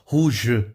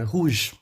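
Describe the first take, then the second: First: A vowel sound is pronounced after the final g. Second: The word ends on the g sound. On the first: The speaker calls it wrong. "Então não vai falar rouge, né?" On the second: The speaker calls it right. "Não, é rouge. Morreu ali, som do G, acabou"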